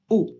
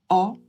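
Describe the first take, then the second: First: The vowel is pronounced closed, with the mouth tighter. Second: The vowel is pronounced open, with the mouth wider. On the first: "comme un O fermé" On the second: "comme un O ouvert"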